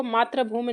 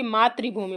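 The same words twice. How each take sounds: First: मातृभूमि misread with "ra", as maatra-bhoomi; मातृभूमि with an "a" vowel after the tr; wrong pronunciation. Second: मातृभूमि read with "ri", as maatri-bhoomi; मातृभूमि with an "i" vowel after the tr; correct pronunciation. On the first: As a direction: say मातृभूमि as "maa-tra-bhoo-mi". नहीं पढ़ेंगे. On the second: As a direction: say मातृभूमि as "maa-tri-bhoo-mi". बल्कि मातृभूमि पढ़ेंगे. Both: Shown as a demonstration.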